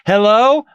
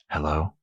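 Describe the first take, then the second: First: It is said loudly and confidently. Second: It is said quietly and hesitantly.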